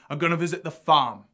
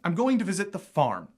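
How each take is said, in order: First: A Cockney London accent, with the r dropped. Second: An American accent, with the r in farm pronounced. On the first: "Cockney also uses this non-rhotic R" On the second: "So in American, you might say"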